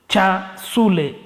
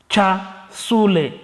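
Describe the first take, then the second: No difference in how they are said.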